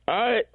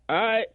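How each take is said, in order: The two takes are said the same way.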